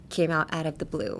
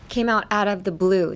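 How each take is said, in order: First: Soft, breathy whispered repeat. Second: Said in the usual way. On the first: Shown as a demonstration. Teacher repeating the idiom to learners in a whisper. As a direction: whisper the phrase to the viewers.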